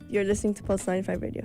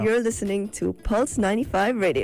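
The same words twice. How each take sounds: First: It is said flatly, without much energy. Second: It is said with lively enthusiasm.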